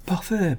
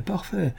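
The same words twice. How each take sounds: First: High sneering scoff of a word; a mocking, pitched-up sneer. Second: High, much softer sneer trailing off; fading sneer. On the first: Count sneering at Floriani's theory, high mocking scoff. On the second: Count repeating his sneer at Floriani, softer fading scoff. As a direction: let the mockery drop away to a near murmur. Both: A narrator's reading. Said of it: "Le comte ricana".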